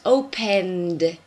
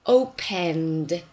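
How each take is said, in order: Both takes have the same delivery.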